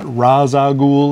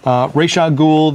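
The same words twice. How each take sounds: First: The name is pronounced the way the Arrow show says it. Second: The name is pronounced the way the cartoon says it. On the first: The speaker calls it wrong. "not Ra's al Ghul, as they say on Arrow now" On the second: The speaker calls it right. "just like they did in the animated series"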